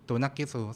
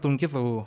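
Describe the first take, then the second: First: It is said in four syllables, tu-naq-qi-su. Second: It is said in three syllables, tun-qi-su. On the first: "เชคอ่านว่า" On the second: "ตอนแรกอ่านว่า"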